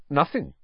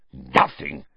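First: Said in the usual way. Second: A lower, rising, scornful echo; spat in disbelief. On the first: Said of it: "said Harry truthfully". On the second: A narrator's reading. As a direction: throw the word back with contempt. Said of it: "spat Filch".

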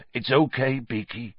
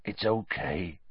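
First: Gentle and soothing; calm the frightened beast gently; soft comfort. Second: Quieter, barely above a murmur; softer still. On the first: Hagrid soothing the nervous Buckbeak, softly. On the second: Hagrid repeating comfort to Buckbeak, much softer. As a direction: let it fall away almost to nothing. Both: A narrator's reading. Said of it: "said Hagrid softly".

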